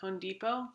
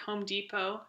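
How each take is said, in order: First: Home ends with an n sound, said fast. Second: Home ends with an m sound.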